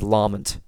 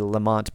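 First: The name is said closer to the Gaelic original. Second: The name is said the common American way. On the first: The speaker calls it right. "the correct pronunciation is Lamont, which is closer to the original Gaelic" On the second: The speaker calls it wrong. "In America, we often say Lamont"

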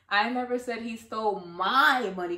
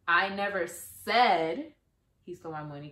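First: The stress is on "my". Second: The stress is on "said".

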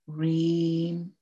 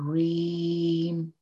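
The two takes are said the same way.

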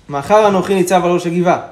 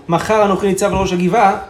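Both takes have the same delivery.

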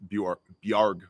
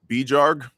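First: The J sounds like a Y after the B. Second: The J sounds like the English J in jar. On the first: This is how Scandinavians say it. The speaker calls it right. "but it's Bjarg or Bjorn, right? It's a Scandinavian sound" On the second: This is how Americans would say it. The speaker calls it wrong. "here in America, people would probably be like"

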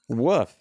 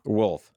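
First: The word is said with no L sound. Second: The word is said with a clear L sound. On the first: "They say woof" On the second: "with the L"

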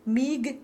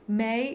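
First: It ends with a clear g sound. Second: It ends in a vowel with no g. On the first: This is the formal form used in singing. "she would sing mig" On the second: This is the everyday spoken form. "she would say may"

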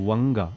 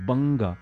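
First: The word begins with a W sound. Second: The word begins with a B sound. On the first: The speaker calls it wrong. "singing it as Wanga and that is ridiculous. It is totally wrong" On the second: The speaker calls it right. "People need to know the right pronunciation"

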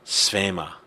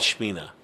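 First: The word begins with an s sound. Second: The word begins with a sh sound. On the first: "Actual pronunciation is Svema" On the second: "We all call it Shmina"

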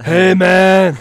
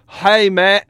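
First: It is said without an Australian accent. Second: It is said in an Australian accent.

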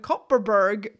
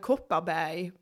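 First: The name is said with an English pronunciation. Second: The name is said with a Swedish pronunciation. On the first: The speaker calls it wrong. "pronounce it the way it's pronounced in the UK" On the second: The speaker calls it right. "I pronounced it in Swedish, the way it sounds"

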